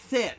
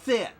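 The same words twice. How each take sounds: First: The s is made with the teeth together. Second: The s is lisped with the tongue. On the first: The speaker calls it right. "You put your teeth together" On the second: The speaker calls it wrong. "not sit. Get your tongue out of the way"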